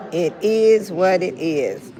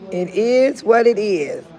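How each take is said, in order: First: "It is what it is" drawn out slowly; slow emphatic reading. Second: "It is what it is" read slowly and louder; slow emphatic reading. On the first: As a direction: read "It is what it is" slowly again. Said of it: "You see what it say". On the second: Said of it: "Let's see what my hat say". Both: Shown as a demonstration.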